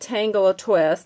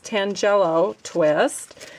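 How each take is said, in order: First: The first word sounds like 'tangle a'. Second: The first word sounds like 'tangelo'. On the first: The speaker calls it wrong. "now I was calling it Tangle a Twist. Apparently that is not the correct way to say it" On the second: The speaker calls it right. "It's Tangelo Twist"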